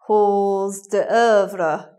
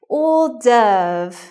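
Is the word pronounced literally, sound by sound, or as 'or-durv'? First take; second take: literal; or-durv. First: Every part of the word is sounded out. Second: The word is said smoothly as 'or-durv'. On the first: The speaker calls it wrong. "You might say hors d'oeuvre" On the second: The speaker calls it right. "It should be hors d'oeuvre"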